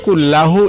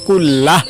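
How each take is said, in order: First: The word ends with an added u vowel. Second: The word ends on a plain h sound. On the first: "অথবা কুল্লাহু" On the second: "লাস্টে হা উচ্চারণ, কুল্লাহ অথবা কুল্লাহু এভাবে পড়বেন"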